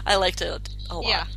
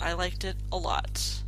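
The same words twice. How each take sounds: First: It is said warmly, with enthusiasm. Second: It is said flatly, without enthusiasm. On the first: The liking sounds genuine. The speaker calls it right. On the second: The liking does not sound convincing. The speaker calls it wrong.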